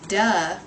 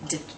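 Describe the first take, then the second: First: The d sound has an added vowel after it. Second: The d sound is short with no vowel. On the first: The speaker calls it wrong. "Instead of saying duh" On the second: The speaker calls it right. "we're going to say d"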